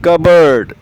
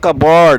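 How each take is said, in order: First: The second syllable is reduced, like bud. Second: The second syllable sounds like board. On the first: The speaker calls it right. "होता है कबर्ड" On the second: The speaker calls it wrong. "ये कबॉर्ड नहीं होता, this is wrong pronunciation"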